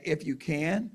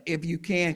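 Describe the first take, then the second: First: "If you can," rising up on "can" as a question. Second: "If you can" said flatly, falling at the end on "can"; if you can as a statement. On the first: Jesus repeating the father's words as a rising question. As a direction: lift "can" at the end, asking it back. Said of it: "Or maybe he's repeating the man". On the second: Jesus echoing the father's words as a falling statement. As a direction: let "can" drop down like a plain statement. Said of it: "sometimes it's stated as a statement". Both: Shown as a demonstration.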